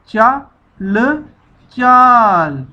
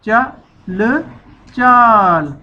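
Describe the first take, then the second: No difference in how they are said.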